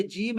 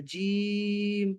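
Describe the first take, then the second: First: Said in the usual way. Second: Long, level drawn-out "جیم"; elongated letter name. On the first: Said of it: "تو اس کو آپ نے لمبا کرنا ہے". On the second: Shown as a demonstration. Teacher showing tajweed lengthening, "جیم" held long. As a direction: hold the vowel of "جیم" very long and steady. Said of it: "اس کو آپ نے لمبا کرنا ہے".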